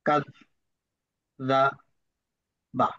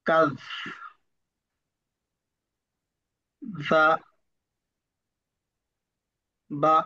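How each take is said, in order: First: The syllables are read a little faster. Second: The syllables are read very slowly with effort. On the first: "দ্বিতীয়বার একটু তাড়াতাড়ি পড়ার চেষ্টা করব" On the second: "অনেক সময় লাগলো আমার পড়তে"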